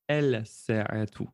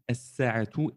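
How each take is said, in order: First: The L is pronounced before the S sound. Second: The L is dropped, doubling the S sound. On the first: The speaker calls it wrong. "et pas el-sa'atu" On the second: The speaker calls it right. "nous dirons as-sa'atu"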